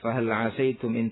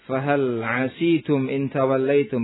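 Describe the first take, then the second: First: The s is followed by the vowel a. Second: The s is followed by the vowel i. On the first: This is the reading most others use. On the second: This is the alternative reading of the verb.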